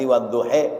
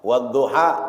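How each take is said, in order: First: The final vowel leans toward e. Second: The final vowel is an open a.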